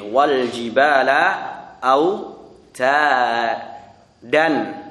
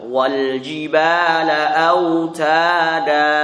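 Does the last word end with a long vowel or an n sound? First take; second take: n sound; long vowel. First: The last word ends with an n sound. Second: The last word ends with a long vowel. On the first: The reading continues past this word. "Misalkan di tulisan seperti ini" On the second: The reading stops at this word. "Namun apabila kita waqaf, maka harus dimatkan"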